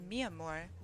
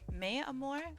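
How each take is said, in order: First: The first word sounds like 'me'. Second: The first word sounds like 'may'. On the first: The speaker calls it right. "It's definitely Mi Amor" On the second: The speaker calls it wrong. "I don't know why I pronounce your name as May"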